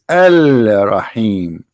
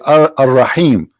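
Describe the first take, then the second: First: The L is clearly sounded before Rahim. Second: The L blends into the following R sound. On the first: This reflects the word's real form. The speaker calls it right. "the fact it is Al Rahim" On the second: This is the usual everyday pronunciation. The speaker calls it wrong. "this is how it's pronounced"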